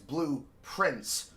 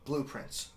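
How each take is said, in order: First: It is said at a normal, unhurried pace. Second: It is said quickly, with the sounds run together.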